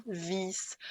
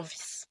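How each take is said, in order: First: VIS with the I held long. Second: VIS with a short, quick I. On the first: Teacher showing the contrast, long drawn-out I in "vis". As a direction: stretch the vowel in "vis" into a long ee. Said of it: "c'est un son long". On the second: Teacher giving the short-vowel example, short I in "vis". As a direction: say "vis" with a brief, clipped vowel. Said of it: "c'est un son court". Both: Shown as a demonstration.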